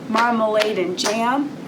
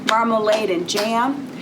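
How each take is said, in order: Both takes have the same delivery.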